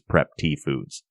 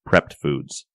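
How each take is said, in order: First: The first word is said as two syllables, 'prep tee'. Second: The first word is said as one syllable, 'prepped'. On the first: The speaker calls it wrong. "I just assumed it was Prep T Foods" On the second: The speaker calls it right. "it's pronounced Prepped Foods"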